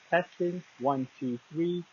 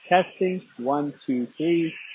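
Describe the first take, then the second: First: It is recorded indoors. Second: It is recorded outdoors. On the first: "This is a test of the Tranya T one Pro microphone" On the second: "This is an outdoor test of the microphone"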